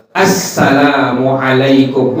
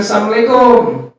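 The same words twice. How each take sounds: First: Assalamualaikum drawn out slowly, every syllable; slow, complete Assalamualaikum; full careful salam; careful full greeting. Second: Assalamualaikum slurred to samlaikum, higher; clipped careless Assalamualaikum; lazy mumbled salam; sloppy clipped greeting. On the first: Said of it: "Kita ngucapin kalimat". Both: Shown as a demonstration.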